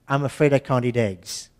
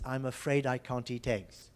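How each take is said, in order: First: The T in eat is tapped. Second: Both T sounds are crisp, none tapped. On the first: "most people would actually say" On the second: "I said tegs, which is quite a B B C pronunciation"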